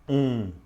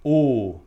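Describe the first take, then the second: First: The vowel is nasal, with air through the nose. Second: The vowel is closed, with lips rounded tight.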